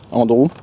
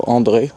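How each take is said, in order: First: Andrew said the English way, AN-droo; English pronunciation. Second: André said the French way, ahn-DRAY, stress on the end; André with French vowels, last syllable stressed; the French name André, said in French; French pronunciation. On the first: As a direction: Andrew with English vowels, stress on the first syllable. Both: Shown as a demonstration. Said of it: "je sais pas trop comment on prononce".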